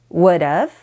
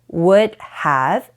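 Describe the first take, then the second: First: The words blend into one reduced form. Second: Both words are said fully and separately.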